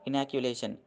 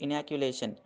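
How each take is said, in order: The two takes are said the same way.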